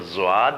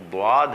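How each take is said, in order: First: The word begins with a z-like sound. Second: The word begins with a d-like sound. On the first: The speaker calls it wrong. "ज़्वाद जो है वो ज़्वाद नहीं है" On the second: The speaker calls it right. "वो द्वाद है"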